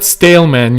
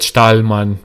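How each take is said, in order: First: The name is said like English stale man. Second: The name is said with a German vowel. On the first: The speaker calls it wrong. "it's not stale, man. ... this is now your English bias talking" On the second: The speaker calls it right. "I would pronounce that [name] because uh, because I live in Germany"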